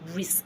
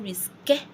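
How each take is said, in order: First: The word ends sharply on the K sound. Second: A vowel sound is heard after the final K. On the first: The speaker calls it right. "I won't pronounce the E" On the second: The speaker calls it wrong. "averagely as an English speaker, I would say risque or risque somehow because of the E"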